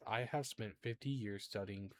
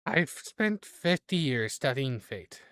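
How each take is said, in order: First: Softer, understated fortune teller's grumble; muttering under breath. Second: Loud, slow fortune teller's complaint; hammed-up grumble. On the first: Acted. Fortune teller grumbling on arrival, muttering under her breath. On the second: Fortune teller catching up to the group, grumbling loudly. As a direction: grumble it aloud, drawing out each word. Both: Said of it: "mutters under her breath".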